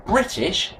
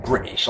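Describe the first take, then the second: First: British in a careful, well-educated English accent; decent educated accent. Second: British in a rough scally accent. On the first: Host correcting himself after a slip, decent educated accent. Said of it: "with a decent accent and good education". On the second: Host mocking his own slip, scally accent. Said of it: "like the scale there". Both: Shown as a demonstration.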